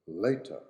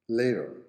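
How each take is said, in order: First: It is said in a British accent. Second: It is said in an American accent. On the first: "in British" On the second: "in American"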